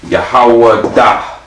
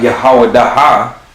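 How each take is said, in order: First: The ending fades out as a soft breath. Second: The ending has a separate, clear ha sound. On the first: The speaker calls it right. "It's like a breath at the end of it" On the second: The speaker calls it wrong. "It's not Yahweh da ha"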